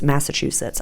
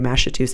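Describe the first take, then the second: First: The word is said with a standard pronunciation. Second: The word is said with a jokey, odd pronunciation. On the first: It is the normal way to say it. The speaker calls it right. "I know how to pronounce it" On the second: It is a running joke. The speaker calls it wrong. "I made a joke about Massachusetts, and now it's like I say Massachusetts"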